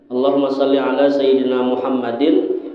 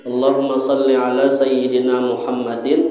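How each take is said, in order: The two takes are said the same way.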